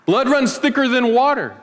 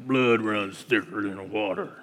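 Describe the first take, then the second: First: Said in the usual way. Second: Low, slow cowboy drawl, softer; deep gravelly Western movie voice; Sam Elliott drawl. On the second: Retold or imitated. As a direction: growl it like an old Western cowboy. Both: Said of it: "That's my best, uh, Sam Elliott impersonation".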